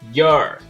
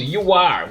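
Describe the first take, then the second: First: The two words merge into one syllable. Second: Both words are said fully and separately.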